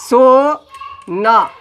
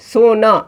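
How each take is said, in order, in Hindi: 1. शब्द "सो" के बाद विराम के साथ बोला जाता है। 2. शब्द बिना रुके सहजता से बोला जाता है। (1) "अलग अलग बोलो" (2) "अब इसको हमने एक साथ लिख दिया"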